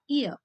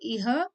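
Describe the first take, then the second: First: The h is silent after the vowel. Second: The h is sounded after the vowel. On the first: The speaker calls it right. "but then I say ihr" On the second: The speaker calls it wrong. "That's why I don't say ihr"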